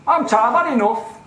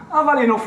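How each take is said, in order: First: Imitating a weary, exasperated official, higher and louder; fed up. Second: Repeating his weary complaint, higher and louder; hammed-up exasperated official, raised voice; fed up. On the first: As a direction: play him as tired and done with it, raised voice. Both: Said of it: "this is his attitude on the phone".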